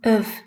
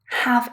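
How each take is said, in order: First: The vowel is reduced to a schwa. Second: The word has a full, strong vowel. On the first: "of is the weak form" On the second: "Have is the strong form"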